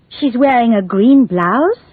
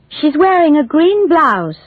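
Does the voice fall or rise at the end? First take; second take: rise; fall. First: It is said as a question, rising. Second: It is said as a statement, falling.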